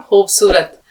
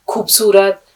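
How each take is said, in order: First: खूबसूरत with a throaty fricative kh; correct kh sound. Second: खूबसूरत with a plosive aspirated kh; wrong kh sound. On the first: Teacher confirming the correct pronunciation, throaty kh. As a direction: say खूबसूरत with a rasping kh at the start. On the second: Teacher showing the common mispronunciation, hard kh. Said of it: "ये सब गलत है". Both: Shown as a demonstration.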